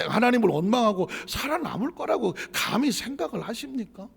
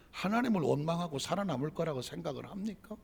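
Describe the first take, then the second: First: Louder, higher preacher's question; emphatic rhetorical rebuke; forceful challenge. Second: Said in the usual way. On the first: Real, not acted. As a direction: challenge the congregation, voice raised. Question repeated with more force.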